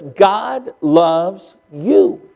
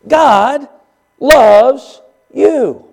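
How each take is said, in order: First: God loves you said very slowly, soft, voice rising on you; stress on YOU. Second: God, pause, then loves hit hard and falling; stress on LOVES. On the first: Preacher telling the church God loves you, slow and soft, you rising. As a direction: lean softly on you and let it rise. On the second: Preacher pressing God's love on the church, loves punched. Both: Shown as a demonstration. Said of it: "Just let that sink in a little bit".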